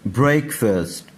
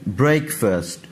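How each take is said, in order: Both takes have the same delivery.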